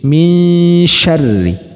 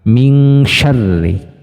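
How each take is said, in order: First: The n is blurred toward the sh sound. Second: The n is pronounced as an ng sound. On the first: The speaker calls it right. "cenderung uh, masuk atau samar ke makhrajnya shin" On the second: The speaker calls it wrong. "kita membunyikan bunyi nun sukunnya itu ke bunyi ang"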